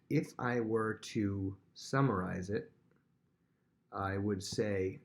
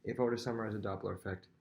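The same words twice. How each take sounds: First: Slow, drawn-out summary voice; slow, careful teacher summary; slow, deliberate. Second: Fast, rattled-off summary; quick teacher recap. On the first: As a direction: spell it out slowly for the class. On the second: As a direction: rush the line out in one breath. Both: Shown as a demonstration. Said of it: "this is how I would say it".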